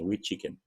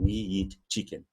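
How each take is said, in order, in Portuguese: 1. As palavras fluem juntas, sem muita ênfase. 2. Cada palavra é dita com muita ênfase. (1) "Essa frase vai ser falada assim" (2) "Nunca vai dizer assim, ... Só se ele estiver querendo enfatizar algo muito bem enfatizado"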